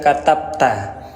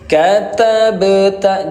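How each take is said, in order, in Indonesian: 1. Bunyi b ditutup dengan biasa, tanpa gema. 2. Bunyi b dilepas dengan gema yang memantul. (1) "jangan dibaca katabta" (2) "Pantulkan huruf yang berwarna ungu ini"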